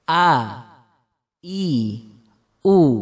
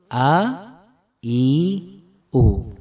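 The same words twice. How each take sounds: First: Each vowel starts with a pressed throat catch. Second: Each vowel starts softly from the mouth. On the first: This is the Arabic hamzah sound. "yang dari tenggorokan suaranya" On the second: This is the Indonesian letter a sound. "Kalau yang dari mulut"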